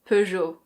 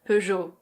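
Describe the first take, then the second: First: It is said in a French accent. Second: It is said in a French accent.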